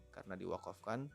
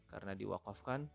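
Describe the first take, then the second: Both takes have the same delivery.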